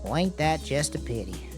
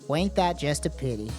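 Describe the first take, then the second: First: It is said in a cowboy voice. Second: It is said in a normal voice.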